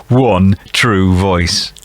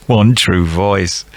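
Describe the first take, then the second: First: Slow, drawn-out fake enthusiasm; feigned interest. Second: Slow, laughing mock interest; laughing through it. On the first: Quizmaster pretending to be interested, fake fascination. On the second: Quizmaster failing to fake interest, laughing. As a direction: crack up mid-pretence. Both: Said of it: "I'm trying to pretend I'm really interested".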